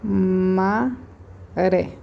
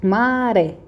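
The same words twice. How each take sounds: First: Maré split into a long ma, pause, ré; syllable by syllable. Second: Maré stretched out, stress on RÉ; stress on final syllable. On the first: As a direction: dictate Maré slowly in two separate syllables. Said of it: "vou escrever de novo". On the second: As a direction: call out Maré so the stressed ré stands out. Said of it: "qual que é a minha sílaba tônica?". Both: Shown as a demonstration.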